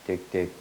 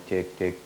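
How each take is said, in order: Both takes have the same delivery.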